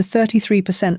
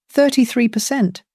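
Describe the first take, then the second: First: Said in the usual way. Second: "Thirty-three" lifted high and punched, then falling; stress on thirty-three. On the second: Shown as a demonstration. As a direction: repeat "Thirty-three percent" with strong emphasis on "Thirty-three".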